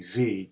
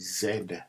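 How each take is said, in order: First: It is said the American way, as zee. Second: It is said the Canadian way, as zed.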